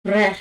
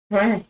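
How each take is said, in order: First: Frère with a French tapped r and open è. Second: Frère said again, open è, short; French frère. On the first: Teacher modelling frère for students. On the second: Teacher repeating frère for the class. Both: Shown as a demonstration. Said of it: "Now let's look at".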